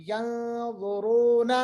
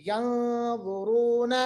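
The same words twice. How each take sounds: No difference in how they are said.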